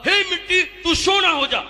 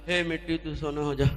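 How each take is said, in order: First: It is said with great energy. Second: It is said with little energy.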